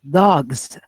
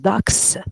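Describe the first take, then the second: First: The word ends with a z sound. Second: The word ends with an s sound. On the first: The speaker calls it right. "with Z, Z sound" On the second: The speaker calls it wrong. "You don't say"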